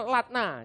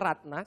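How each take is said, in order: First: The name begins with an L sound. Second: The name begins with an R sound. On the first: "agak cadel, R enggak bisa" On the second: "saudara boleh panggil dia Ratna"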